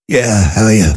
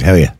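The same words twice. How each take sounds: First: Put-on poorly phone voice; faked sick voice. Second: Said in the usual way. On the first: Employee answering the boss on the phone, faked sick voice. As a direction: imitate a caller feigning illness. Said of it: "Why are you faking your voice?".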